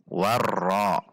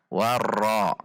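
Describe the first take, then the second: The two takes are said the same way.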